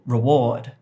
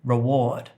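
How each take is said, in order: First: The stress is on the second syllable. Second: The same.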